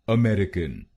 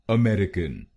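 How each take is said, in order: The two takes are said the same way.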